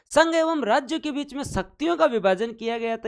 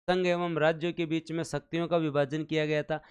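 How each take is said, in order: First: High, insistent teacher's restatement; emphatic repeat. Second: Said in the usual way. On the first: Shown as a demonstration. Teacher repeats the point to quiz the class, high and emphatic. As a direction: repeat the point higher and with more punch.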